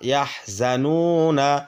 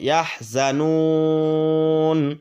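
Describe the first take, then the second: First: The word ends with a short 'na' vowel. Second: The word ends with a long held 'n'. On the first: The reading continues without stopping. "নুন যাব না" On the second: The reader stops at this word. "নুনটাকে তিন আলিফ টেনে পড়বো এইভাবে"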